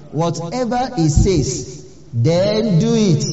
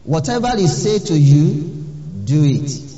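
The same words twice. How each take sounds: First: Preacher driving home "then do it"; emphasis on whatever and do. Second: "Whatever" rising and stressed, a touch louder; preacher stressing "Whatever"; emphasis on whatever. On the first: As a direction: press "Whatever" and drag "then do it" out firmly. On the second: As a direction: lean on "Whatever" with a lifting tune. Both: Shown as a demonstration. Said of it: "I want to put emphasis on that word".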